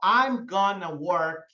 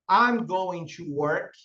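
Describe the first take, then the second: First: Going to is reduced to one word, gonna. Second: Going to is said in full, two words.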